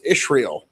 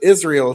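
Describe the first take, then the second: First: The middle consonant is a sh sound. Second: The middle consonant is a plain s sound. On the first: "It's Ishrael, which is weird" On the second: "She doesn't pronounce it Israel"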